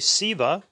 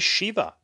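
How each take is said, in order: First: The word begins with a plain s sound. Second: The word begins with an sh sound. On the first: "many people use the letter H or not" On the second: "many people use the letter H or not"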